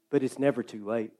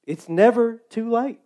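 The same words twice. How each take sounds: First: Low and soft, almost to yourself; quiet aside. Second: Higher, NEVER lifted with a rising tune; lifted emphasis. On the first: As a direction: murmur it as a gentle truth. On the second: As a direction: lift the word never with conviction. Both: Acted. Repeated line, two takes.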